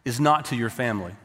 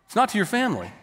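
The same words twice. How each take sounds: First: Said in the usual way. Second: Not lifted high and stressed. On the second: Shown as a demonstration. Preacher repeating the point to the congregation, stress on not. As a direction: lean on the word not.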